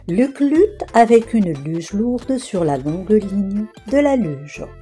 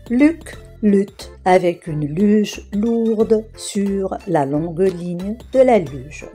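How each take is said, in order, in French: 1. La phrase est prononcée vite. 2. La phrase est prononcée lentement. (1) "je la répéterai plus rapidement" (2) "Je vais d'abord prononcer chaque phrase lentement"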